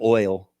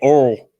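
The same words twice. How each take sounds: First: The word has a standard pronunciation. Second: The word has a regional redneck pronunciation. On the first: "instead of oil" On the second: "At least I don't say oil"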